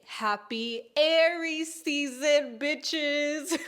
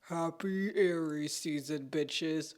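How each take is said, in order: First: It is said in her normal voice. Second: It is said in a devilish, villain-like voice.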